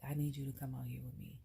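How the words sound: It is said in an upset, pleading tone. The speaker needs comfort and support. "she might need some assistance, a shoulder to cry on"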